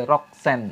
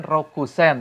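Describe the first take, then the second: First: "Roksen" slowly, without the u; slow "Roksen", k straight into s; u left silent. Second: "Rokusen" with the u sounded; three syllables in "Rokusen", ro-ku-sen; unreduced reading. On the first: Co-host showing the real reading, slow with u dropped. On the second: Co-host showing the expected form, u fully sounded. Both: Shown as a demonstration. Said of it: "U-nya nggak dibaca".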